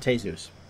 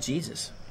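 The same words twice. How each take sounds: First: The name is said with Spanish sounds. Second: The name is said with English sounds. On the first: "but it was pronounced Jesus" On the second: "I kind of wondered why you would name a kid Jesus"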